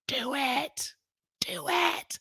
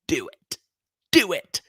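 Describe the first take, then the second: First: It is said in her own normal voice. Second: It is said in an Emperor Palpatine impression.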